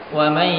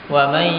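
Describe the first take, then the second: No difference in how they are said.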